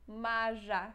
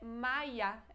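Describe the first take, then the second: First: The middle consonant is a zh sound. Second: The middle consonant is a y sound. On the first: The speaker calls it wrong. "não lemos isso Maja" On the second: The speaker calls it right. "É como se tivesse I"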